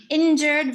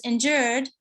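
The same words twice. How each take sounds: First: "injured" stressed on "in"; first-syllable stress. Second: "injured" stressed on "jured"; second-syllable stress. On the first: Lecturer contrasts two stresses, "injured" stressed on first syllable. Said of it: "If there's no vowel changes". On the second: Lecturer imitates the shifted stress, "injured" stressed on second syllable. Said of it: "moved his stress to the second syllable". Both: Shown as a demonstration.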